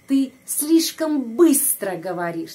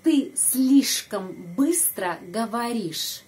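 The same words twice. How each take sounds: First: Louder model. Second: Slow model. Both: Shown as a demonstration. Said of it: "Coba ikut saya".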